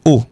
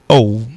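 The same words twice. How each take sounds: First: The vowel is short and clipped. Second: The vowel is long and drawn out. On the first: This is how French says it. "en français, le son bref" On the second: This is how English says it. "en anglais, le son euh, traînant"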